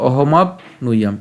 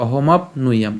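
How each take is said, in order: First: "অহমাপ্নুয়াম" slowly in parts, ohomap, nuyam; split pronunciation. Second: "অহমাপ্নুয়াম" run together as ohomapnuyam; joined pronunciation. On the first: Teacher reading the broken-up slide, "অহমাপ্নুয়াম" in two parts. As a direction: break "অহমাপ্নুয়াম" after the p. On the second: Teacher showing it said together, "অহমাপ্নুয়াম" as one word. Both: Shown as a demonstration. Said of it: "একসাথে".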